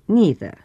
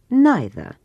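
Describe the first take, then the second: First: It is said the way less common in Britain. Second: It is said the way more common in Britain. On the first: "а не neither" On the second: "в британском английском ... более принято употреблять форму neither"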